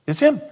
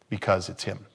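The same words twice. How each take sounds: First: It's him jumps very high and louder; emphatic repeat. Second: Said in the usual way. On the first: Shown as a demonstration. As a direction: fling It's him up as the point.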